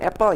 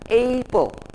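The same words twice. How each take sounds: First: The word is said with Indonesian-style vowels. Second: The word is said with English-style vowels. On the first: The speaker calls it wrong. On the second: The speaker calls it right.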